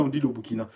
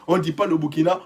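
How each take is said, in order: First: "le Burkina" said softly, as the correct form; quiet final correction, "le Burkina"; le Burkina given as right. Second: "le Burkina" said as the form to avoid; mock correction of "le Burkina"; le Burkina marked as wrong. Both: Shown as a demonstration. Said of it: "tu sais même pas écrire".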